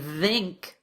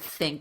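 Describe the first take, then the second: First: The first sound is a voiced th. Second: The first sound is a voiceless th. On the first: The speaker calls it wrong. "It actually feels wrong and feels difficult to say" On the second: The speaker calls it right. "instead of"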